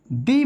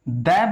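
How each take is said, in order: First: दी said as "thee" with a long ee. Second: द said as a quick "duh"; द with a short neutral vowel, like "thuh". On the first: Teacher to students, showing the before vowels, long thee. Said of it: "इसका जो pronunciation है वो". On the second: Teacher to students, showing the before consonants, short duh. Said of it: "हम इसको". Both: Shown as a demonstration.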